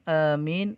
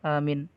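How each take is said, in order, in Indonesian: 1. Vokal pertamanya dibaca panjang. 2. Vokal pertamanya dibaca pendek. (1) "dengan panjang" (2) "dengan qasar"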